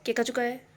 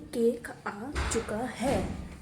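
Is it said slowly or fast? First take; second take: fast; slowly. First: It is said fast. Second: It is said slowly.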